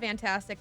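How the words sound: It is said in a sincere, genuine tone. It really was great.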